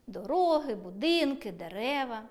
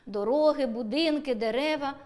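First: Дороги, будинки, дерева with each word falling at its end; falling list tune. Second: Дороги, будинки, дерева louder, voice held up on each word; raised list tune. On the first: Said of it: "в першому реченні вимовляємо зі зниженою інтонацією". (перелік Дороги, будинки, дерева зі зниженням голосу) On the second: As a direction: build Дороги, будинки, дерева toward the closing summary word. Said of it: "а в другому — з підвищенням голосу". (перелік Дороги, будинки, дерева з підвищенням голосу) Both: Shown as a demonstration.

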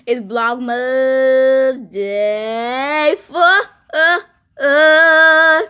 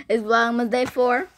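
First: FOUR stretched loud, rising, with echoed tails; drawn-out announcement. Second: Said in the usual way. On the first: Real, not acted. Vlogger hyping Vlogmas day to viewers, drawn-out. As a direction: hold each word of "Vlogmas Day four" long, building louder.

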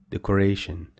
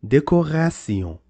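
First: Decoration ending in an English 'shun'; English pronunciation. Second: Decoration as 'day-ko-ra-syon', French R; French pronunciation. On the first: Teacher translating the French word, English 'shun' ending. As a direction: say decoration the English way, 'deco-RAY-shun'. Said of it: "It comes from English language". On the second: Teacher giving the French word, French 'syon' ending. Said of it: "called sion". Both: Shown as a demonstration.

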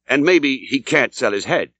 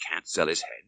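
First: The landlord slows down for "maybe", savouring the joke; drawn-out teasing innkeeper line; sly landlord. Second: Much softer, puzzled repeat with the stress on "sell"; baffled echo. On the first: Acted. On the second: A narrator's reading. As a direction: mutter it back in disbelief to yourself. Narrator echoes, baffled, to himself.

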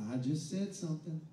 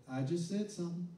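No difference in how they are said.

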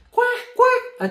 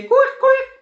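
First: High, odd-timbre quack; squeaky cartoon duck quack. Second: High quacking duck sound. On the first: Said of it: "أتوقع هكذا". (صوت بطة كرتوني) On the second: Pretend. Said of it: "كيف صوت ال-، البطة؟". (تقليد صوت البطة)

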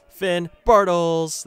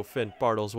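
First: Long, loud stretched cry of the name; drawn-out goal shout. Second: Said in the usual way. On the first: Real, not acted. Gamer hails his striker with a long, loud goal roar. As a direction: roar "Finn Bartels!" as he scores.

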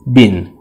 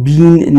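First: بین with a short i, as in "bin"; short vowel. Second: بین with a drawn-out "ee"; wrong بین with long, tense i; long vowel. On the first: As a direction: say بین short and low, no drawn-out "ee". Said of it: "بلکه ای کوتاه هستش". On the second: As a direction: say بین like English "been". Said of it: "این ای کشیده نیست". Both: Shown as a demonstration.

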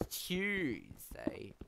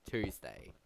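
First: TUESDAY said as "CHOOZ-day", drawn out and high; British pronunciation. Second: Said in the usual way. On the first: Shown as a demonstration. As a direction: say Tuesday with a "ch" start, stretching the first syllable. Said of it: "it's easier saying Tuesday compared to Tuesday". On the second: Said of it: "compared to Tuesday".

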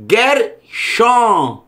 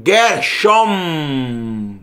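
First: "Gershon" in two slow parts, ending open; open-mouth final N. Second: "Gershom" lower, ending on a long hummed m; closed-mouth final M. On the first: Teacher modelling final nun, mouth left open. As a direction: keep the lips apart at the end of "Gershon". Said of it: "boca aberta, que é nun". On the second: Teacher showing the hypothetical mem spelling, long closed m. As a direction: shut the lips on "Gershom" and draw out the m. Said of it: "Se fosse com mem aqui". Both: Shown as a demonstration.

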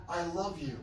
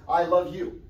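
First: A soft, tender "I love you"; softly reassuring "I love you". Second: Said in the usual way. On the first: Shown as a demonstration. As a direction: say "I love you" gently after hard words, softer. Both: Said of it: "followed up with".

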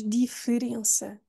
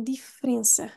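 First: Diferença with the middle E said in full; wrong pronunciation. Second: Diferença said as difrença with the E swallowed; correct pronunciation. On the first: Teacher showing the diferença nobody says, E kept. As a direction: keep the E in diferença. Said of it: "Eu acho que ninguém diz". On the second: Teacher giving the right diferença, E swallowed. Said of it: "vamos engoli-lo". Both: Shown as a demonstration.

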